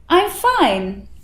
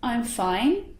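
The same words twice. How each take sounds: First: It is said buoyantly, with lively movement. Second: It is said in an ordinary, neutral voice. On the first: "the buoyant tone" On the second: "I'm just saying it normally"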